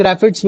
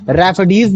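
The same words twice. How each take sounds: First: रैफिड्स said with a short "dz" ending; alternative pronunciation. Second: रैफिडीज said with a long "deez" ending; alternative pronunciation. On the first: Teacher showing students the other common form, रैफिड्स ending in short "fids". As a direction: say रैफिड्स in two beats, ra-fids. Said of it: "कुछ लोग रैफिड्स भी बोल देते". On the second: Teacher showing students how some people say it, रैफिडीज ending in "deez". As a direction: say रैफिडीज in three beats, ra-fi-deez. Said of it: "भी कुछ लोग बोलते हैं". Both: Shown as a demonstration.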